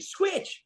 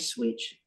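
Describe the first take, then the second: First: It is said loudly and assertively. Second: It is said quietly and timidly.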